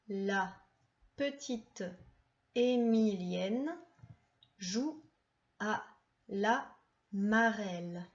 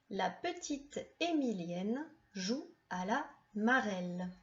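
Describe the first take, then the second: First: The sentence is read at a slower pace. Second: The sentence is read at a faster pace. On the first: "On la lit ensemble" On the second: "On la lit un peu plus vite"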